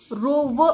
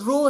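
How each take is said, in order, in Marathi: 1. शब्दाचा शेवट v आवाजाने होतो. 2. शब्दाचा शेवट स्वरावर होतो. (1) "रो व असा त्याचा उच्चार होत नाही" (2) "त्याचा उच्चार रो असा होतो"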